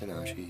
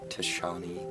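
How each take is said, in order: First: The name is said with the sounds ta-na-shi. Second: The name is said with the sounds ta-sha-ni. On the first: The speaker calls it right. "yes, it's Tanashi" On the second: The speaker calls it wrong. "I mispronounced it in the first part because I'm dumb, and not Tashani"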